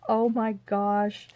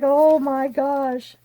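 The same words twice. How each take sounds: First: Said in the usual way. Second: Drawn-out oh my gosh, higher; mock amazed. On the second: Hearing the dad cried, slow amazed gasp. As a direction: stretch it slowly in mock wonder. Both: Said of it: "I was like".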